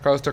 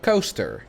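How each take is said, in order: First: The word is said quickly in rapid succession. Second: The word is said at an unhurried pace.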